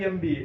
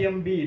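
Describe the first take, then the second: Both takes have the same delivery.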